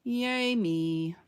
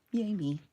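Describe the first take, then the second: First: Self cheer. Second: Said in the usual way. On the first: Real, not acted.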